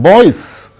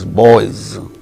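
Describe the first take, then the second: First: The final sound is a hissing s. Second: The final sound is a buzzing z. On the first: The speaker calls it wrong. "it is not boys" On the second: The speaker calls it right. "it is boys"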